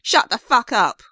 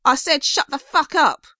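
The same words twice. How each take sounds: First: Angry gruff shout, louder. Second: Furious repeat, higher and louder; angrier gruff shout. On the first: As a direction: bark it at the singer, louder. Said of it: "gruffer male voice shouted". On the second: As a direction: yell it harder, higher and louder. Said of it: "gruff voice repeated". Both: Acted.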